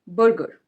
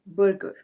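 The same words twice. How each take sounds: First: The R sounds are pronounced, American style. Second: The same.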